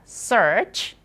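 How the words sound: An American accent with the R sound pronounced. "Kalau di Amerika dibaca search"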